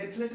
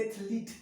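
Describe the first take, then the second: First: एथलीट with a short "e" ending, ath-LET; wrong pronunciation. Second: एथलीट with a long "ee", ath-LEET; correct pronunciation. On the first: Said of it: "एथलीट नहीं पढ़ेंगे". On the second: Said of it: "क्या?". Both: Shown as a demonstration.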